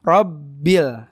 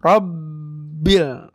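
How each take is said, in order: First: Rabbil with b pressed just briefly; a short firm press on b in Rabbil; moderate tasydid. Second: Very slow Rabbil, b blocked too long; overdone tasydid. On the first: Teacher shows right amount, Rabbil briefly pressed. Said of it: "Yang penting kena penekanannya". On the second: Teacher shows overdoing, Rabbil pressed too long. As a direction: exaggerate the closure on b in Rabbil. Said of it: "Tapi jangan berlebihan". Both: Shown as a demonstration.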